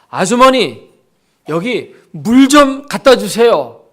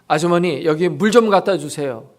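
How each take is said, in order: First: It is said in a loud voice. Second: It is said at normal volume.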